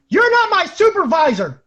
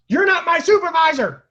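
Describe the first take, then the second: First: Put-on high, loud drunk defiance; defiant yell. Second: Put-on high, loud drunk scream; drunken scream. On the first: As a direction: yell it straight in her face. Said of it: "I looked her in the face and I said". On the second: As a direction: scream it running half-naked.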